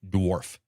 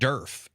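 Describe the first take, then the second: First: The word is said with a w sound. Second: The word is said without a w sound.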